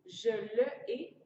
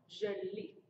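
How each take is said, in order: First: The pronoun's vowel is kept before the verb. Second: The pronoun's vowel is dropped before the verb. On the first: The speaker calls it wrong. "drôle de prononciation" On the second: The speaker calls it right. "écoutez bien la prononciation"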